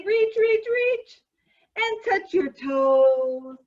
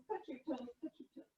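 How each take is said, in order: First: Loud, slow stretch cue. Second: Almost gone, softer echo; faded quiet. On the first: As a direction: call the stretch out slowly. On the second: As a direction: let the cue fade away. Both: Acted. Exercise leader, echo fading.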